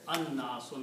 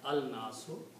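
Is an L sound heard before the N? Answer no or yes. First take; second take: no; yes. First: The L merges into a doubled N sound. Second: A clear L sound comes before the N. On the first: The speaker calls it right. "it is pronounced as an-nasu" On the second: The speaker calls it wrong. "not al-nasu"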